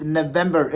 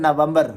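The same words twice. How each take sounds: First: November as nuh-VEM-ber; English November, nuh-VEM-ber; right pronunciation. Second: November as na-VAM-bar; Urdu-style November, na-VAM-bar; wrong pronunciation. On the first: Teacher giving the correct form, November as nuh-VEM-ber. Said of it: "it's November". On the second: Teacher rejecting the mistake, November as na-VAM-bar. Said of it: "it is not November". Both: Shown as a demonstration.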